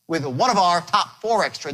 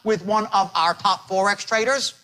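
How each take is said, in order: First: The first words run together into one. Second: Each word is said separately, staccato.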